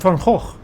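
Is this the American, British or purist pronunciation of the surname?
purist. The name is said the original purist way. "for purists"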